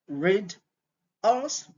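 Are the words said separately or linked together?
separately. Each word is said separately.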